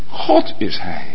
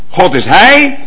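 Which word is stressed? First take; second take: God; hij. First: The stress falls on the word God. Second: The stress falls on the word hij. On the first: The speaker is God himself. "en dan ineens" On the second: He is the one speaking, not the messenger himself. "aanvankelijk nog"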